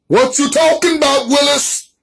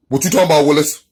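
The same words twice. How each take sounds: First: Put-on pitched-up quote of the sitcom kid's line; playful higher-pitched sitcom kid voice; sitcom catchphrase impression. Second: Said in the usual way.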